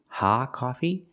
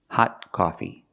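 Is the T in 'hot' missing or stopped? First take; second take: missing; stopped. First: The T at the end of 'hot' is dropped. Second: The T at the end of 'hot' is stopped. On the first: The speaker calls it wrong. "It's not ha coffee" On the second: The speaker calls it right. "You have to stop the air and make a stop T"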